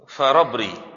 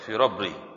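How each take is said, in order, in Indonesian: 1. Suku kata pertama vokalnya 'a'. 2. Suku kata pertama vokalnya 'i'.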